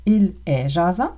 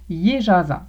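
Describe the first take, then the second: First: Said in the usual way. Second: "il est" contracted to "y'est" before "jasant"; casual Québécois "il est jasant", said "yé jâsant"; Québécois contraction. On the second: Shown as a demonstration. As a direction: drop the L and say "il est" as one syllable, "yé". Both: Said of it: "deviendra il est jasant".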